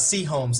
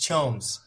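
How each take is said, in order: First: It sounds like a letter followed by Holmes. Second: It sounds like one single word, Chomes. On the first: The speaker calls it wrong. "it's not C Holmes" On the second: The speaker calls it right. "it's Chomes"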